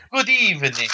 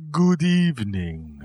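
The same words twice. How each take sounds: First: Fireside gentleman. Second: Slow, formal good evening; like a gentleman by the fire; stately host voice. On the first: Shown as a demonstration. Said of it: "a pipe and some brandy and a smoking jacket". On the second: Acted. Posh fireside host voice.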